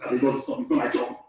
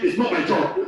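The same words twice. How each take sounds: First: Said in the usual way. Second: Lightly acted brush-off; a hint of a bored clerk; imitating a staffer refusing a relative; mock dismissive reply. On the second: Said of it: "Instead of saying".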